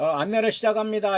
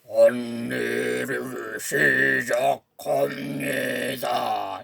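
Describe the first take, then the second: First: A gentle, friendly young woman's voice. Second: A strange, eerie, slow male voice. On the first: "그 상냥한 아가씨 목소리로" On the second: "저승사자 같은 이상한 뭐 괴상한 남자 목소리로"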